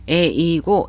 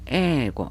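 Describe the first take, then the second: First: The first vowel is split into e then i. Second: The first vowel is one long drawn-out e. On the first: The speaker calls it wrong. "일본인들은 이것을 에이고라고 읽질 않아요" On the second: The speaker calls it right. "에를 길게 발음하는 장음화 현상"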